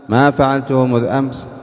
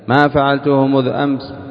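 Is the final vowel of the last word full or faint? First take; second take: faint; faint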